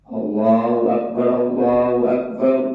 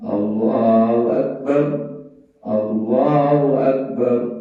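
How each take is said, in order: First: Both phrases are said in one breath. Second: The phrases are said in two breaths.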